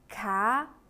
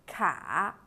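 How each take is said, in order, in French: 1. La hauteur monte du milieu vers le haut. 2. La hauteur descend bas puis remonte.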